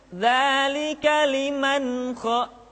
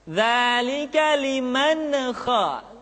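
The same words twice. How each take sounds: First: The n sound is plain without an echo. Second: The n sound is bounced with an echo. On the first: The speaker calls it right. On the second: The speaker calls it wrong. "mengucapkan nun mati dengan suara yang mantul"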